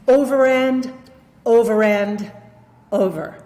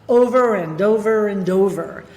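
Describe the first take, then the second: First: There is a pause after each 'and'. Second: The words run together without any pause. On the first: The speaker calls it wrong. "this error of pausing after the word and" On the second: The speaker calls it right. "I could keep the whole thing together"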